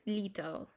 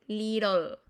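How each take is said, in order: First: "little" with a true T in the middle; British "little", like "li-tol"; British pronounced T. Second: "Little" with the T as a quick Spanish r; American "Little", like "liRol"; American tapped T. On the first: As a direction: keep the T of "little" crisp, never tapped. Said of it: "en inglés británico es". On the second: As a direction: tap the middle of "Little" instead of a crisp T. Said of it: "se convirtieran en una R". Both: Shown as a demonstration.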